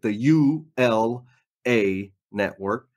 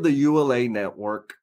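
First: The name is said slowly and clearly. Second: The name is said quickly and somewhat mumbled. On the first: "Let me say that slower" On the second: "I know my kind of mumble a little bit"

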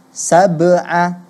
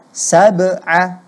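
The two takes are said the same way.

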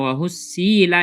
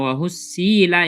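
First: The vowel on the s-sound is drawn out long. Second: The same.

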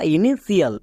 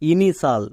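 First: The ending is said with sh plus extra i: shial. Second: The ending is said as a single syllable: shal. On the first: The speaker calls it wrong. "বা ইনিশিয়াল" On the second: The speaker calls it right. "কিন্তু এর উচ্চারণ হবে ইনিশাল"

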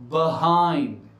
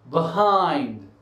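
Both takes have the same delivery.

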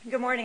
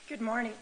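First: It is said in a louder, commanding voice. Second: It is said in an ordinary, quieter voice. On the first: The speaker calls it right. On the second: The speaker calls it wrong.

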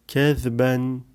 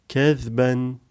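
Both takes have the same delivery.

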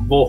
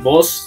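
First: The final s sound is dropped. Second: The final s sound is pronounced. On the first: This is how Nicaraguans say it. "Se comen la s totalmente" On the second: This is the usual way to say it. "En vez de decirle vos"

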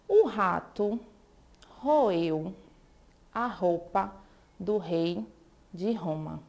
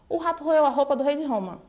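First: The sentence is spoken slowly. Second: The sentence is spoken faster. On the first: "Falando assim devagar é até fácil" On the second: "Vamos tentar um pouquinho mais rápido?"

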